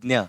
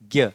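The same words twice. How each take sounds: First: It is pronounced with a 'dnya' sound. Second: It is pronounced with a 'gya' sound. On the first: This is the Marathi pronunciation. The speaker calls it right. "डी एन वाई, ... ये है correct" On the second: This is the Hindi-style pronunciation. The speaker calls it wrong. "जी वाई ए इस तरह से आप pronunciation करते हो, ... लेकिन ये गलत है"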